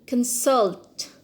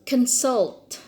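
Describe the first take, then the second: No difference in how they are said.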